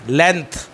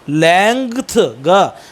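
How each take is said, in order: First: No hard g sound is voiced in the word. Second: A hard g sound is voiced in the word. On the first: The speaker calls it right. "The correct pronunciation of this word" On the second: The speaker calls it wrong. "लेंथ ये ऐसे नहीं बोलना है"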